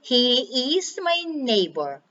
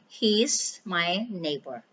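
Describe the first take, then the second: First: He and is are said as two words. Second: He and is are joined into one word. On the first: The speaker calls it wrong. "instead of saying" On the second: The speaker calls it right. "you could say ... So it's flowing"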